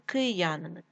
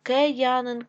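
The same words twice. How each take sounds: First: Said in the usual way. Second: Киянин said as Кеянин; е in first syllable. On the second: Shown as a demonstration. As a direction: open e after К in Киянин. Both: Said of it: "Київ".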